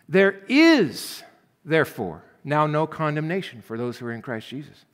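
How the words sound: The stress is on "is".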